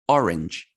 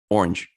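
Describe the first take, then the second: First: The word is said with two syllables. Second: The word is said with one syllable. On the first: "Orange, two syllables" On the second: "Americans, orange, orange, orange. It's one syllable"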